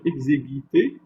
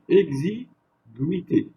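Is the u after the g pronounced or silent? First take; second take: silent; pronounced. First: The u after the g is silent. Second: The u after the g is pronounced. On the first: The speaker calls it wrong. "Je ne vais pas dire exiguïté" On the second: The speaker calls it right. "je vais dire exiguïté"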